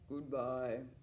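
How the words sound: It is said in a low voice.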